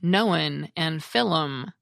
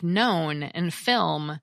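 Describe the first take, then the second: First: The words are said with an added vowel. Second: The words are said without an added vowel.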